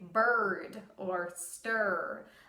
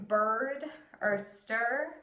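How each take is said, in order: First: The R sound is harsh and strong. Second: The R sound is soft and light. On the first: "it's actually a really harsh R. You accentuate the R" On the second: "instead of saying those"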